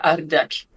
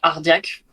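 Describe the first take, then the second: First: The word is said with a rolled R. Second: The word is said with an unrolled R. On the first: This is how it is said on the Spanish side. "côté hispanophone ça serait Ardeak en roulant le R" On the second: This is how it is said on the French side. "côté frontière franco francophone, ... comme on prononce comme ça"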